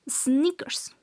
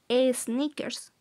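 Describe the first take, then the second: First: The word begins directly with the S sound. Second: An extra E vowel is added before the S. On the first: The speaker calls it right. "Solamente inicia con una S" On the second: The speaker calls it wrong. "tratemos de acostumbrarnos a no decir sneakers"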